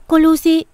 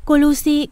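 First: Even louder, higher desperate yell; frantic yell. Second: Louder and higher panicked cry of the name; panicked shout. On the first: Servant calling the master about Lucy, frantic yell. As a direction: scream her name at full force. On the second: Servant calling the master about Lucy, panicked shout. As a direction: call out her name in alarm. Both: Acted. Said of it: "mày hét to thế".

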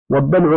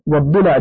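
First: والضلع with a after ض, silent ل vowel; plain dal' form. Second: والضلع with i after ض, a after ل; kasra, then fatha. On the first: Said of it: "والضلع بكسر الضاد وفتح اللام". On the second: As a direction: say والضلع as wad-dila'. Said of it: "بكسر الضاد وفتح اللام". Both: Shown as a demonstration.

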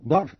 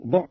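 First: ضعف as ḍaʕf; fatha form. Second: ضعف as ḍuʕf; rounded short vowel opening ضعف; damma form. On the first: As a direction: say ضعف with "a" on the dad. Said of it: "والفتح ضعف في العقل". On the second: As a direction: say ضعف with "u" on the dad. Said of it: "أو الضم ضعف في البدن". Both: Shown as a demonstration.

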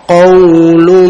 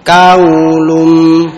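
First: Qaulum with a thick, heavy qaf; heavy emphatic qaf. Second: Kaulum with a thin light k; thin wrong kaf. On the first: Teacher demonstrating to students, thick heavy qaf. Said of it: "jangan dihilangkan isti'lanya". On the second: Teacher showing students the common mistake, thin k. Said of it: "jangan dihilangkan isti'lanya menjadi". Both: Shown as a demonstration.

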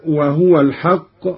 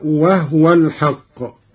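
First: Said in the usual way. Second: وهو as "wahwa", vowelless ha; silent ha. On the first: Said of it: "قرأ قالون بإسكان الهاء". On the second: Shown as a demonstration. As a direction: close the ha of وهو into the waw. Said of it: "بإسكان الهاء".

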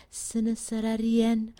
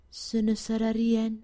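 Both takes have the same delivery.

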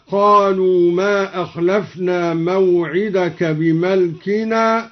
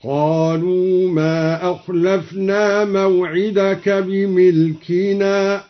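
First: Said in the usual way. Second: بملكنا said as bimilkina; kasra on the mim. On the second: Shown as a demonstration. (بِمِلكنا بكسر الميم) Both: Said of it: "قرأ الدوري بكسر الميم".

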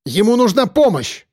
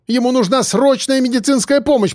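First: High, urgent shout; крик о помощи; shouting for help. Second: High, cracking desperate plea; отчаянная мольба; despairing plea. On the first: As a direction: shout so someone comes to help. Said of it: "крикнула Кобра". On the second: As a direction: beg as the voice breaks. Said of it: "в нём звучало отчаяние". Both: A narrator's reading.

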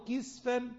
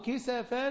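First: كسفا said "kisfan", no vowel after the s; كسفا as kis-fan; singular reading, sukun. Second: كسفا said "kisafan", a after the s; كسفا as ki-sa-fan; plural reading, fatha. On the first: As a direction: close the s onto the f in كسفا. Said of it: "المفرد". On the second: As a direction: open the s in كسفا with a short a. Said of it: "يعني قطعا". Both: Shown as a demonstration.

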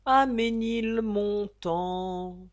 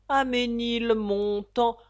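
First: Sung, slower, gentler echo of the line; sung, let the refrain fade away. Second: Slow, drawn-out singing; sung refrain. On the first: Repeated refrain, fading. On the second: Narrator singing the Ménilmontant refrain, slow and drawn out. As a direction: croon it like an old music-hall tune. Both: A narrator's reading.

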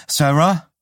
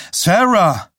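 First: SARAH raised, with a rising end; questioning call. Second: SARAH shouted high, falling at the end; urgent call. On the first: Someone calls after fleeing Sarah. (SARAH fragend gerufen) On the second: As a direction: call out SARAH loudly after her. Calls again, now more urgently. (SARAH laut und dringend gerufen) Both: A narrator's reading.

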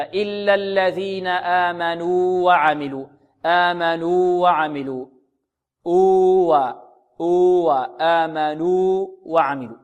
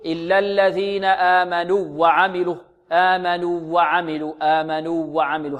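First: آمنوا وعملوا with a long "nuu", then a distinct "wa"; slow chant, hold the first waw two counts before وعملوا; separated waws. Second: آمنوا وعملوا with the two waws fused into one doubled w; merged waws. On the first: Shown as a demonstration. Teacher showing the correct recitation, separated waws. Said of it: "تظهر من الواو الثانية هكذا". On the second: Retold or imitated. Teacher imitating students' mistake, merged waws. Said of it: "فلنحذر من إدغام الواو في الواو".

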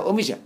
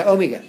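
First: "أوميجا" said "omisha", with soft zh or sh; soft jim. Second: "أوميجا" said "omiga", with hard g; loud "أوميجا" with a g as in go; intended hard g. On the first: Teacher showing the misreading, "أوميجا" with soft zh. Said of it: "لو كتبها جيم هينطقها". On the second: Teacher showing what is wanted, "أوميجا" with hard g. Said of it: "هو عاوز ينطق أوميجا". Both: Shown as a demonstration.

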